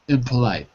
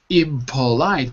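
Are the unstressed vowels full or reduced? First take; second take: reduced; full. First: The first two vowels are reduced to uh. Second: All vowels are pronounced fully and clearly. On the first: The speaker calls it right. "we change the e to an uh, and the o to an uh" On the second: The speaker calls it wrong. "instead of saying impolite"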